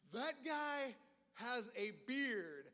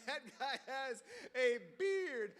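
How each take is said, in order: First: Slow, stunned muttering to himself; slow stunned thought; awestruck disbelief. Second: Slow repeat, laughing, a little louder; laughing disbelief. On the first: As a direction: drag it out, amazed at the beard. Freshman staring at bearded senior. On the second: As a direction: laugh through the amazed line. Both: Retold or imitated.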